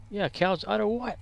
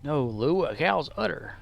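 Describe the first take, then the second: First: High, puzzled comic sidekick; baffled question pitched up in double-act style; Abbott and Costello. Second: Insistent straight man correcting his partner; comedy-duo correction, falling at the end; Abbott and Costello. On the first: Confused partner asking back about the udder, high comic bafflement. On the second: Straight man correcting Lou about the udder, insistent double-act delivery. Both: Acted. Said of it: "Like Abbott and Costello".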